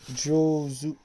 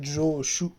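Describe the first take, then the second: First: The word ends with the syllable zu. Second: The word ends with the syllable shu. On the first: The speaker calls it right. "ça se prononce Jozu" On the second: The speaker calls it wrong. "c'est pas Joshu, attention"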